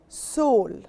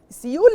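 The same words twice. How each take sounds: First: It is pronounced the English way. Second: It is pronounced the Arabic way. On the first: The speaker calls it right. "But in English we say Seoul" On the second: The speaker calls it wrong. "We don't say Seoul. Seoul in Arabic"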